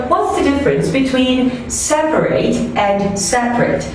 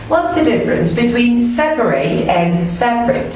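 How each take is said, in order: Both takes have the same delivery.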